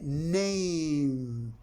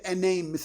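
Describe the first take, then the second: First: The word begins with a plain 'n' sound. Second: The word begins with the letter name 'en'. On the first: The speaker calls it right. "we say na, name" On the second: The speaker calls it wrong. "We do not say a name"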